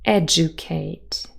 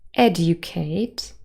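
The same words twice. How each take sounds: First: The middle sounds like 'ju', d and y merged. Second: The middle sounds like 'dyu', with separate d and y. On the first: "with J coalescence" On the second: "R P"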